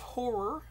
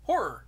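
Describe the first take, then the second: First: The word is pronounced carefully, both syllables clear. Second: The word is clipped, sounding like another word. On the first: The speaker calls it right. "I have to pronounce it that way" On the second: The speaker calls it wrong. "the way I typically do, it sounds like I'm saying horror"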